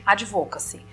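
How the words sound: It is pronounced the Brazilian Portuguese way. "aqui nós demos uma brasileirada"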